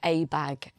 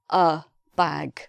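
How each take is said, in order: First: The article is said fully, like 'ay'. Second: The article is reduced to a short 'uh'. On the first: The speaker calls it wrong. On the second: The speaker calls it right.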